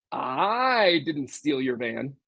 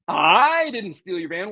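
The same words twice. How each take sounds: First: Slow, low, soft, with a rise on "I"; changed inflection. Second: "I" lifted and leaned on, the rest slow; stress on I. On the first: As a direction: draw out "I didn't steal your van" slowly and quietly, lifting "I". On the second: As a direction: hit the word "I" so it sounds like someone else did it. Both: Shown as a demonstration. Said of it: "just by the voice inflection".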